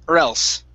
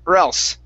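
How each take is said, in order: The two takes are said the same way.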